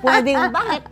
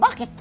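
First: The word is drawn out long. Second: The word is said short and quick. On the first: "pwedeng habaan yung bakit" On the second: "O maikli"

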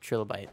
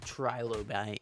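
First: The word is said loosely, with a slurred middle. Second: The word is said carefully, every syllable distinct. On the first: This is the easy everyday way to say it. "But Trilla, it just rolls off the tongue a little better" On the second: This is the overly proper way to say it. "if you're a tryhard"

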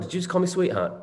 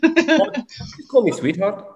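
First: It is said in the speaker's own British accent. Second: It is said in a South African accent.

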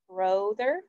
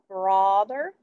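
First: The first vowel sounds like oh. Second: The first vowel sounds like aw. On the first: "Does it say O?" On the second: "Does it say aw?"

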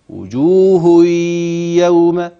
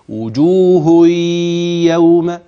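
First: The n merges into the y with nasalization. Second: The n merges into the y with nasalization.

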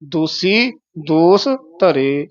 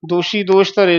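First: The words are said with a plain s sound. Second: The words are said with an sh sound. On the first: The speaker calls it right. "ਸੱਸੇ ਦੇ ਚਰਨਾਂ 'ਚ ਬਿੰਦੀ ਨਹੀਂ ਲਾ ਦੇਣੀ" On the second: The speaker calls it wrong. "ਦੋਸ਼ੀ ਦੋਸ਼ ਧਰੇ ਨਹੀਂ ਕਹਿਣਾ"

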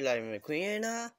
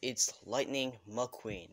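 First: The name is said with an Italian accent. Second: The name is said without an Italian accent. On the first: The speaker calls it wrong. "Sorry, I'm just Italian" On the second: The speaker calls it right. "It's Lightning McQueen, not Lightning McQueen"

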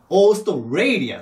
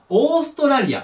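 First: The second syllable, "stray", is strongly stressed. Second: All syllables are even, in Japanese katakana rhythm. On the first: The speaker calls it right. "オーストレイ、ここが強いの。" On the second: The speaker calls it wrong. "オーストラリアって読むんじゃなくて"

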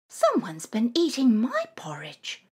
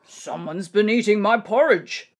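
First: It is said plainly in Mother Bear's voice. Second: It is growled in Father Bear's voice.

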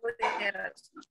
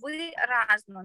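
First: The stress is on the second syllable. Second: The stress is on the first syllable. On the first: The speaker calls it wrong. "не" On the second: The speaker calls it right. "оце правильні наголоси"

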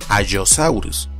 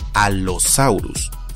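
First: The double L is heard as a Y-like sound. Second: The double L is heard as two L sounds. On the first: The speaker calls it wrong. "y no Allosaurus, como sería en español" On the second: The speaker calls it right. "que se pronuncia Allosaurus"

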